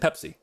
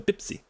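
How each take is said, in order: First: The word begins with a p sound. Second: The word begins with a b sound. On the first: "He was saying Pepsi" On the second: "they don't pronounce the the p sound; they do the b"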